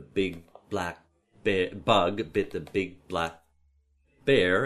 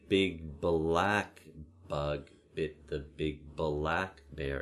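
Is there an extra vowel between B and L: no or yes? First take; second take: no; yes. First: B moves straight into L with no vowel. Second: A short schwa is inserted between B and L.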